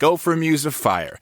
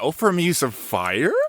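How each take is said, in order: First: The energy drops at the end of the line. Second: It rises at the end like a question.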